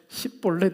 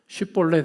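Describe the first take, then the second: First: The word begins with a plain 's' sound. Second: The word begins with an 'sh' sound. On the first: The speaker calls it wrong. "십볼렛 이렇게 발음합니다" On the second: The speaker calls it right. "쉽볼렛 해보라"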